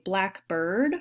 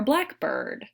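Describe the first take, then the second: First: "blackbird" as one word, stress on black; one compound "blackbird", black stressed. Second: "blackbird" as black bird, stress on bird. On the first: A teacher showing students the stress of "blackbird". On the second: A teacher showing students the contrasting stress of "blackbird". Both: Shown as a demonstration. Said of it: "if we put the stress on a different syllable".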